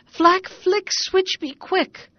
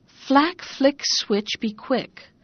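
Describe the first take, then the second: First: Cried spell. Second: Spell words. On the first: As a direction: spell words cried out high and loud, the last slowed right down. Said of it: "he cried". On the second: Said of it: "you have only got to say". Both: Acted.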